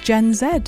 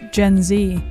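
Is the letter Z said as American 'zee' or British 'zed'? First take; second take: British zed; American zee. First: Z is said the English way, 'zed'. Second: Z is said the American way, 'zee'.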